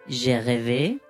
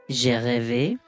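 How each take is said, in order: No difference in how they are said.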